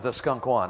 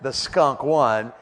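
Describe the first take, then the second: First: Said in the usual way. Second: Drawn out, each word weighted; slow emphatic repetition. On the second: Real, not acted. Preacher making sure everyone heard the bad news, slow and emphatic. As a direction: stretch out "The skunk won" very slowly. Repeated slowly for comic emphasis.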